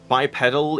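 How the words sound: It is said with the American pronunciation. "bipedal in the U S"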